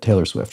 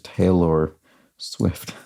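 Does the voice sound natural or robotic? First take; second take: natural; robotic. First: It is said in a natural speaking voice. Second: It is said in a flat, robotic voice.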